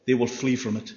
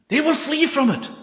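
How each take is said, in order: First: Said in the usual way. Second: "They will flee from it" again, much higher and louder, "will" hit hard; emphatic repeat. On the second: Shown as a demonstration. Preacher drives the point home to the congregation, high and loud on "will". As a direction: ring it out the second time, pressing "will".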